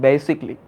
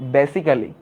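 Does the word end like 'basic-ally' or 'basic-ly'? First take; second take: basic-ly; basic-ally. First: The ending is a short 'ly' syllable. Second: The ending has an extra 'ally' syllable. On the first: This is the proper pronunciation. "কিন্তু উচ্চারণটা কি বেসিকলি" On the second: This is how everyone usually says it. "আমরা কিন্তু সবাই বলি কি বেসিক্যালি"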